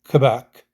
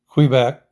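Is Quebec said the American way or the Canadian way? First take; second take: Canadian; American. First: It is said with a Canadian pronunciation. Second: It is said with an American pronunciation.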